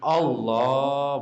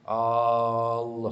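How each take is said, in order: First: The second syllable is drawn out long. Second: The first vowel is drawn out long. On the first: The speaker calls it right. "lam yang dipanjangin Allah baru boleh" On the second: The speaker calls it wrong. "salah udah"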